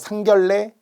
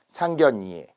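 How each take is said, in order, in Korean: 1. 중간 자음은 ㄹ 소리로 발음해요. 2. 중간 자음은 ㄴ 소리로 발음해요. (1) "어떤 분들은 막 상견례, 상견례라고 하시는 분이 있는데요" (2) "유음화 예외 상견예, 예라는 발음을 정확하게 잘해주세요"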